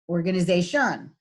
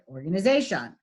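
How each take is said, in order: First: The final syllable carries the stress. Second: The final syllable carries no stress. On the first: The speaker calls it wrong. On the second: The speaker calls it right.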